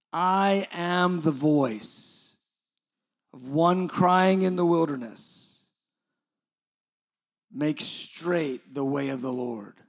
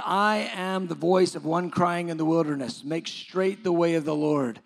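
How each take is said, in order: First: Drawn-out, weighty re-reading with pauses; slow, emphatic scripture. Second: Said in the usual way. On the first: A narrator's reading. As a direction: let each phrase of the verse land slowly. Repeats the verse slowly for emphasis.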